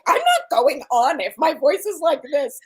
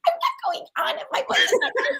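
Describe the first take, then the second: First: It is said in a normal voice. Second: It is said in a high, fast, tiny voice.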